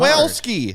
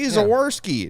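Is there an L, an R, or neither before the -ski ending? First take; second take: L; R. First: The name is said with an L before -ski. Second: The name is said with an R before -ski.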